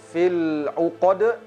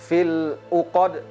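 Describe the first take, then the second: No difference in how they are said.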